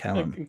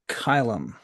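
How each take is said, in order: First: The first syllable sounds like 'cal'. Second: The first syllable rhymes with 'phy' in phylum. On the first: The speaker calls it wrong. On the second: The speaker calls it right.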